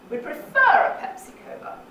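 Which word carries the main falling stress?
prefer. The main fall is on the word prefer. "On the second syllable of prefer"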